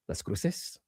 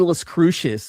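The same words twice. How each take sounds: First: The name is said with a Spanish pronunciation. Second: The name is said with an English pronunciation. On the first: The speaker calls it right. "I'm half Mexican" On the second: The speaker calls it wrong. "If I say Las Cruces, my girlfriend in the Mexican side of my family will crucify me"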